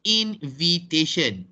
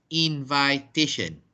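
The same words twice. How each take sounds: First: The 'vi' has a short 'ih' vowel. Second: The 'vi' rhymes with 'eye', as in invite. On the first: The speaker calls it right. "it is invitation" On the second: The speaker calls it wrong. "not invitation"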